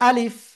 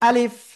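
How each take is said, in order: Both takes have the same delivery.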